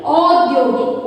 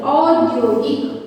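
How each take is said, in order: First: औद्योगिक said slowly as the wrong spelling; wrong form shown. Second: औद्योगिक said slowly with a clear औ; slow औ sound. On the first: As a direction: show औद्योगिक as the error. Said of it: "औद्योगिक नहीं". (औद्योगिक, ग़लत रूप धीरे से) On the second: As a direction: stretch the opening औ of औद्योगिक. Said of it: "औ बनेगी". (औद्योगिक धीरे, साफ़ औ के साथ) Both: Shown as a demonstration.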